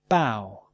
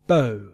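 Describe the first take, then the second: First: The vowel rhymes with how. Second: The vowel rhymes with go. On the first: "And now some OW words" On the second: "diphthongs pronunciation O and OW, as in no and now"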